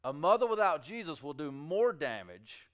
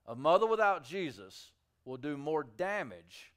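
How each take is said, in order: First: Said in the usual way. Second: "without" drawn out and leaned on; slow down and hit "without"; stress on without. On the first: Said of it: "preacher repeats the claim". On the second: Shown as a demonstration. Preacher repeating the warning to mothers, stressing "without". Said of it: "preacher repeats for emphasis".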